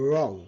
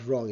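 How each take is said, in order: First: "wrong" with a smooth English r, w silent; correct pronunciation. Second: "wrong" with the learners' hard r; wrong pronunciation. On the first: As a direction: say "wrong" with the tongue clear of the palate. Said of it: "it's a". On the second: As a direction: say "wrong" with the tongue touching the palate on r. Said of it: "not wrong". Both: Shown as a demonstration.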